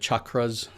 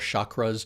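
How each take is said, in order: First: It starts with a hard ch sound. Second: It starts with a soft sh sound. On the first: The speaker calls it right. "The C H is, is, is a hard consonant" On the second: The speaker calls it wrong. "what a lot of New Age people like to call"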